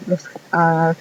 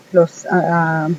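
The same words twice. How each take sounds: The two takes are said the same way.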